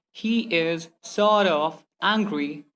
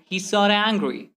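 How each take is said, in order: First: Very slow, words set apart. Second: "sorta" as one joined word; merged letters. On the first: Teacher repeating the slow example, word-by-word. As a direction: separate "sort" from "of". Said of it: "Instead of saying". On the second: Teacher repeating the faster example, merged words. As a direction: run "He's sorta" together. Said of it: "simply say". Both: Shown as a demonstration.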